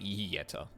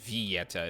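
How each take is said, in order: First: The opening V sound is barely pronounced. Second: The opening V sound is fully pronounced. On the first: "it sounded like the V was barely pronounced" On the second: "instead of saying Vieta"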